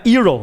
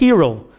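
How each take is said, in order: First: The word starts directly with a vowel sound. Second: The word starts with a breathy h sound. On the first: The speaker calls it wrong. "Não é hero, né?" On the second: The speaker calls it right. "É aquele aspirado"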